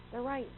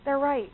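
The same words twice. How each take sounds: First: Much softer "They're right." conceded under the breath; a quiet, humbled "They're right."; grudging admission. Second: Said in the usual way. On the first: Retold or imitated. Speaker admitting critics had a point, quiet concession. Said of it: "I'm like". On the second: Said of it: "Can you relate?".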